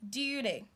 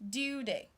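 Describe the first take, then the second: First: The middle T sounds like a D. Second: The same.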